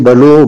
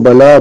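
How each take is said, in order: First: The l is followed by an u vowel. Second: The l is followed by an a vowel.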